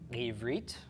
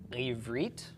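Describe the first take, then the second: The two takes are said the same way.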